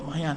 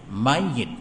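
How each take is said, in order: First: The y sound is single, ending in -at. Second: The y sound is doubled, ending in -it. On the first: This is the Malay form. "Kita sebut mayat" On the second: This is the proper Arabic form.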